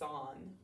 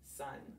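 First: The vowel sounds like the 'o' in 'on'. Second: The vowel sounds like the 'u' in 'up'. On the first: This is the spelling pronunciation, sounding out the letters. "so how do we say this word to spell it? Good, we say son" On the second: This is how the word is said in normal speech. "But when we're speaking, what do we say? Excellent, we say sun"

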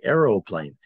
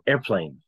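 First: The word begins with an 'arrow' sound. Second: The word begins with an 'air' sound. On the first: It follows the written spelling. "If I pronounce this as I saw it" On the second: It follows everyday American speech. "We made it like how Americans were saying"

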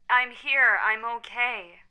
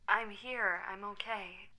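First: It is said more loudly. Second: It is said more quietly.

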